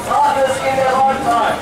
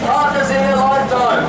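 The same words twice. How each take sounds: The two takes are said the same way.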